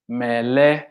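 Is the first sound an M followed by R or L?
L. The word has an L sound instead.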